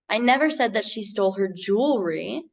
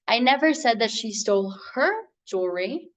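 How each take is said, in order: First: The word "jewelry" carries the stress. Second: The word "her" carries the stress. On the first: "put the emphasis on that last word in the sentence" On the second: "but she did steal the other lady's"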